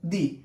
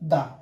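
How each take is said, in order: First: The word ends in an 'ee' vowel. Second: The word ends in a short 'uh' vowel. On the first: A vowel sound follows the word. "ভাওয়েলের আগে যদি টিএইচই থাকে তাহলে সেক্ষেত্রে উচ্চারণ হবে দি" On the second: A consonant sound follows the word. "কনসোনেন্টের আগে যদি টিএইচই থাকে তাহলে তার উচ্চারণ হবে দা"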